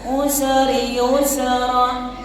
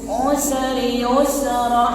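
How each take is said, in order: Both takes have the same delivery.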